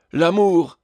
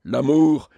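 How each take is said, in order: First: High, loud exclamation on L'amour; struck, declaimed outburst; theatrical cry. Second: Grave, resonant declamation; graver voice. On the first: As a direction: cry out like a stage tragedian. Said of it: "s'écria le tragédien". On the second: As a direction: drop into a solemn tragedian's register. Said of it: "Puis d'une voix plus grave". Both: A narrator's reading.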